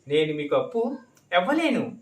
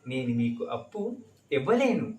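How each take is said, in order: First: It is said forcefully and sharply. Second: It is said softly and kindly. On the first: The refusal is harsh and confrontational. "अगर आप चढ़ के ही बोलना है, ऐसे बोल सकते हैं" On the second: The refusal is polite and affectionate. "मैंने कितने प्यार से बताया है।"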